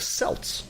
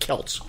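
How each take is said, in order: First: The word begins with an S sound. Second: The word begins with a K sound. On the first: "with a soft S" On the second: "you talk about the harsh C"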